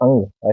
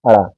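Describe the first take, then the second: First: It is said with a nasal ng sound. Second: It is said with a flapped r sound. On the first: The speaker calls it right. "इसको अंग बोल देते हैं" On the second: The speaker calls it wrong. "क्या सिखाया जाता है? अड़ा। ये अड़ा नहीं है"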